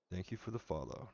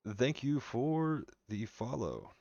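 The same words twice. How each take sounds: First: Said in the usual way. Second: Drawn-out thanks. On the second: Real, not acted. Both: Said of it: "thanks follower twice".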